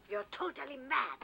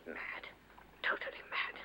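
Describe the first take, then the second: First: Said in the usual way. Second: Breathy repeat to herself; muttered, voiceless repeat of the insult; whispered aside. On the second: Acted. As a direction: whisper it under her breath.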